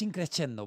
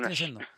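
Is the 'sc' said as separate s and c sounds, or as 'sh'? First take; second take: separate sounds; sh. First: The s and c are pronounced as separate sounds. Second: The 'sc' is pronounced as one 'sh' sound. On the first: The speaker calls it wrong. "en italiano no es increscendo, porque la S con la C no se dice la C" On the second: The speaker calls it right. "Entonces es increscendo"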